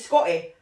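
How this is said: The middle T sound is dropped. "because we're Scottish and we say Scotty"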